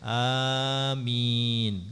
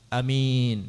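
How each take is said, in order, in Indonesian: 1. Vokal pertama dibaca panjang. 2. Vokal pertama dibaca pendek. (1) "dengan dipanjangkan sesuai wazan fa'il" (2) "a-nya pendek"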